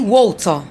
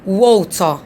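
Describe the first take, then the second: No difference in how they are said.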